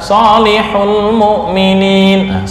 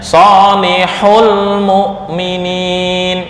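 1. Suku kata 'hul' diucapkan datar, tanpa tekanan. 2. Suku kata 'hul' ditekan tajam. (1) "kalau dibaca biasa" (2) "Bacanya solihul mu'minin. Itu pertanda-pertanda jamak"

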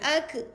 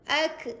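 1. K terakhir memantul menjadi vokal e pendek. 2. K terakhir memantul menjadi vokal e pendek.

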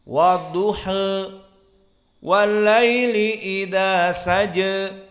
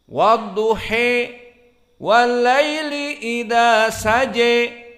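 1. Vokal akhir sedikit condong dari a ke e. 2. Vokal akhir dinaikkan kuat ke arah e. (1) "membaca taklil" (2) "dibaca dengan Al-Imalah Al-Kubra"

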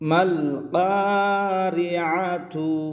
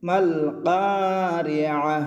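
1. শেষ শব্দটি পূর্ণ 'tu' দিয়ে শেষ হয়। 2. শেষ শব্দটি নরম 'h' উচ্চারণে শেষ হয়। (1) "আমরা এখানে মাল কারিআতু বলেছি" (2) "তো আপনি এরকমও থামতে পারেন"

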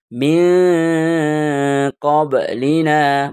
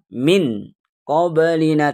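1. Huruf n disamarkan dengan dengung hidung. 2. Huruf n jelas tanpa dengung hidung. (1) "ini harus dibaca samar dan berdengung"

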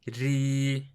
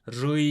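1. "ri" hecesindeki r, ön ünlüyle ince okunur. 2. "ri" hecesindeki r, arka ünlüyle kalın okunur. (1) "Bakın bu keskindir. Peltek değildir" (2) "Rı değil"

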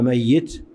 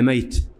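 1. صوت الياء مشدد ويتبعه كسرة. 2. صوت الياء مفرد وغير مضبوط بحركة. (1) "ياء مشددة مكسورة" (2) "بإسكان الياء مع التخفيف"

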